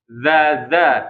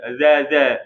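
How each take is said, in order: First: The consonant has audible friction at the teeth. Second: The consonant has no audible tongue friction. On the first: The speaker calls it right. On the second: The speaker calls it wrong. "kalau dia nggak dikeluarkan, maka gesekannya nggak ada"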